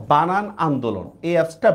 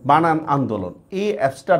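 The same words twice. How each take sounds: The two takes are said the same way.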